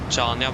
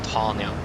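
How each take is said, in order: First: It begins with a ch sound. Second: It begins with an h sound. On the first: The speaker calls it wrong. "not Chania" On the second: The speaker calls it right. "but Hania"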